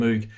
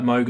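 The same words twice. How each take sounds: First: "Moog" said with an OO as in moo; long-OO "Moog", like moo plus g; Moo-g pronunciation. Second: "Moog" said to rhyme with vogue; long-O "Moog", like Mogue; Mogue pronunciation. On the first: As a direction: say "Moog" with the vowel of food. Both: Shown as a demonstration. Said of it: "It's a bit like Moog and Moog".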